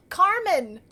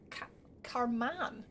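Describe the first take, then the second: First: Carmen with a clear men ending, loud; realization. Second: Carman said slowly as KAR-man; mispronounced name. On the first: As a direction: Carmen exclaimed, rising in surprise. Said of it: "Carmen is in the name". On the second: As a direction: Carman with a flat man ending, slow. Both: Real, not acted.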